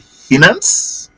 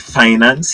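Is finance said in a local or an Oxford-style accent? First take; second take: Oxford-style; local. First: The word is said in a posh Oxford-style accent. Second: The word is said in a plain local accent. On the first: This is the way to address investors and world leaders. "he say finance. And he says, oh, from Oxford" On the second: This is the everyday way to address the general public. "he don't say finance"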